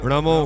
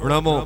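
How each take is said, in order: The two takes are said the same way.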